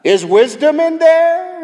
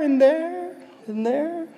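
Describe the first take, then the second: First: Very high, loud singsong holler; calling into cave. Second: Imitated echo. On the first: Acted. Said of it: "standing at the mouth of the cave saying". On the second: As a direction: echo the call, fading out.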